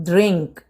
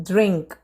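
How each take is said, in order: No difference in how they are said.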